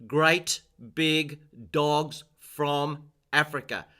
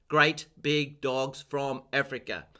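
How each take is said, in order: First: Slowly, each word given weight; teacher's slow memory rhyme; slow spoken mnemonic. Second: Great Big Dogs each word hit on its first letter; stressed initials. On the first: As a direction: spell the lines out slowly for learners. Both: Shown as a demonstration.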